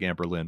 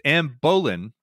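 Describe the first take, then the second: First: The name is said quickly, with syllables run together. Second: The name is said at a slow, careful pace. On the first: "said fast enough, it sounds like Anne Boleyn" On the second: "you're right. It's Anne Boleyn"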